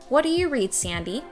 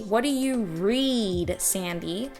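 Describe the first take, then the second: First: The vowel in 'read' is only slightly lengthened. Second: The vowel in 'read' is stretched very long. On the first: "And then I was able to bring it back" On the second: "so I exaggerated it. I did it super over the top"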